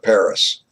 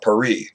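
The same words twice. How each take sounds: First: The word is said with an American pronunciation. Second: The word is said with a French pronunciation. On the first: "if you're American, you call it" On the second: "If you're a Frenchman, you call it"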